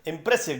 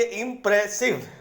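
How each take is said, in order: First: "impressive" in one unbroken quick run; said quickly. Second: "impressive" as three spaced beats, im-pre-sive; broken into syllables. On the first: Teacher shows students the hard-to-hear version, said quickly. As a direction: run all syllables of "impressive" together. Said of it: "जल्दी से बोलेंगे". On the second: Teacher contrasts it with quick speech, broken into syllables. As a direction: split "impressive" clearly at each syllable. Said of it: "तोड़ के बोलेंगे". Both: Shown as a demonstration.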